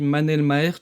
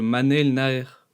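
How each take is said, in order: First: The surname begins with an m sound. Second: The surname begins with n and ends in r. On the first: The speaker calls it wrong. "j'ai dit Manel Maher tout au long de la vidéo" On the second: The speaker calls it right. "au lieu de Manel Naer"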